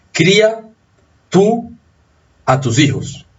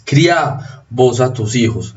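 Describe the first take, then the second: First: "Cría" as CRÍ-a, high on the first two words; tú form "Cría", weight on the I, then a pause; stress on I. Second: "Cría" as criá, slowly, stressed on the last vowel; stress on final A. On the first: Teacher shows the tuteo command, stress on the I of "Cría". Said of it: "tendría acento acá". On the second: Teacher contrasts vos with tú, stress on the final A of "Cría". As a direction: voseo "Cría", accent jumping to the A. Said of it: "el acento está en la abierta". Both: Shown as a demonstration.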